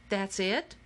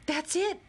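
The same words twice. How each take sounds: First: Underwhelmed question, rising at the end; let-down question. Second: High, sudden exclamation of realisation; excited cry. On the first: Player after the basket just rolls away, let-down rising question. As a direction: ask it in mild disbelief, voice lifting on the last word. Letdown after nothing else happened. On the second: Akemi spotting the fix for the machine, excited high cry. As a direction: cry it out as the answer hits you. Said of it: "cried Akemi". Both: A narrator's reading.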